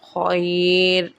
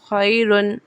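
First: The word stops on a plain 'r' sound. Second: The word ends with a full 'un' sound. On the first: The reader stops at this word. "हा के वफ खैर" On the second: The reading continues without a stop. "रा दो पेश रुन"

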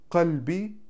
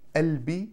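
First: The word starts with a k sound. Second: The word starts with a soft glottal onset. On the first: This is the older standard pronunciation. "никто уже не говорит кальби" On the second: This is how Egyptian and Syrian dialects say it. "Мое сердце на египетском и на сирийском"

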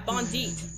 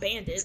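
First: It sounds like 'bon-deet' with a long final vowel. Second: It sounds like 'ban-dit' with a short final vowel. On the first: The speaker calls it right. "Bondeet, not Bandit" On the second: The speaker calls it wrong. "not Bandit"

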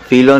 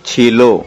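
First: The word begins with an 'f' sound. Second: The word begins with a 'ch' sound. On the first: The speaker calls it wrong. "फिलो नहीं" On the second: The speaker calls it right. "छीलो बोल"

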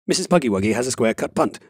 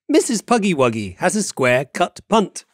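First: It is said at a faster speed. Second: It is said at a normal speed.

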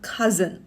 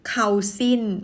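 First: The first syllable sounds like 'kuh'. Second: The first syllable sounds like 'kao'. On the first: The speaker calls it right. "มันออกว่า" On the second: The speaker calls it wrong. "มันไม่ได้ออกเข้าสินนะคะ"

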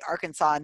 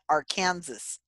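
First: It is pronounced the native way, not as spelled. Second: It is pronounced just as the spelling suggests. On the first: This is the local native pronunciation. The speaker calls it right. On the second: This follows the written form of the name. The speaker calls it wrong. "not Arkansas, which is how it's spelled"

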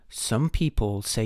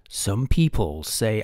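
First: It is spoken in a British accent. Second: It is spoken in an American accent. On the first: The speaker calls it right. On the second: The speaker calls it wrong.

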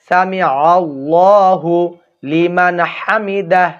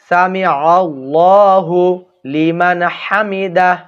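First: The 'hu' sound is joined onto 'Allah'. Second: The same.

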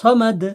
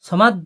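First: The final d is released with an echoing bounce. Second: The final d is cut off without a bounce. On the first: The speaker calls it right. "এটাকে ডালটাকে কলকলা করতে হবে" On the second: The speaker calls it wrong. "সামাদ বলবেন না"

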